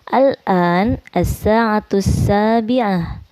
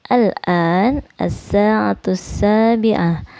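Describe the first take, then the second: No difference in how they are said.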